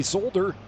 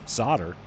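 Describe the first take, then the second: First: Solder with the L sounded, SOLE-der; as spelled. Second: Solder said SODDER, no L; silent L. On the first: Puzzling over English spelling, solder pronounced as written. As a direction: say solder with a long O and an L. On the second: Giving the American way, solder with silent L. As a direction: say solder as SAH-der. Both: Shown as a demonstration.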